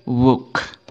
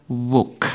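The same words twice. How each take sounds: No difference in how they are said.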